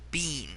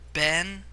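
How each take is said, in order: First: The vowel is a long ee sound. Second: The vowel is a short eh sound. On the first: The speaker calls it right. "it is properly said bean" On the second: The speaker calls it wrong. "Ben is technically a mispronunciation"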